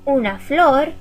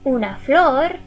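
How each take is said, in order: The two takes are said the same way.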